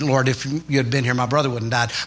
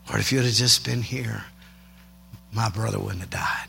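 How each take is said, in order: First: It is said plainly, without much feeling. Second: It is said with deep, worshipful emotion.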